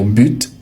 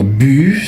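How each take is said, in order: First: The final T is pronounced. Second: The final T is silent. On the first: It is very formal. "avec le T prononcé, c'est très formel" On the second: It is very common in speech. "sans le T, c'est très courant à l'oral"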